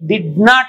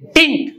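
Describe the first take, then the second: First: Both words are said fully and separately. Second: The words are squeezed into one short syllable. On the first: "డిడ్ నాట్ అనకుండా" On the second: "డింట్ అనొచ్చు"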